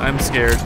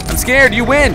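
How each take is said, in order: First: Said in the usual way. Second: High, louder plea of surrender; scared cry. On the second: Real, not acted. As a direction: cry it out, giving up in a panic. Repeats fear, raised voice.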